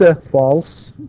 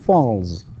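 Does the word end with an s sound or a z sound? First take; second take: s sound; z sound. First: The word ends with a voiceless s sound. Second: The word ends with a voiced z sound. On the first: The speaker calls it wrong. "ننطقه س" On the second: The speaker calls it right. "You say he falls"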